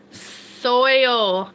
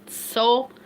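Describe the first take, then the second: First: "Soil" stretched slowly into SOY-ull; drawn-out, overcareful "Soil" as soy-ol; careful pronunciation. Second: Said in the usual way. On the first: Shown as a demonstration. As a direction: labour over the oy in "Soil". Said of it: "Did I say it right that time?". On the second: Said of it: "I can't say it".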